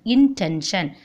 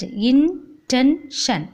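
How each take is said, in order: First: Said in the usual way. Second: Slow "intention" in three separate beats; split into syllables. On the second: Shown as a demonstration. Teacher splitting the word for class, slow syllable by syllable. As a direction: pause between each syllable of "intention". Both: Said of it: "split the word".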